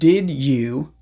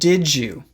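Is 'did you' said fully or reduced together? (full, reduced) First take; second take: full; reduced. First: Both words are said separately and fully. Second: The two words are blended into one reduced sound. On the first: "Instead of saying" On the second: "you can say"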